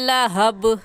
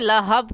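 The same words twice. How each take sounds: First: The final b is released with an echoing bounce. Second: The final b is closed without an echoing bounce. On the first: The speaker calls it right. "कलकला करेंगे, सही है मिनल लहब" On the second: The speaker calls it wrong. "लहब कहना गलत है"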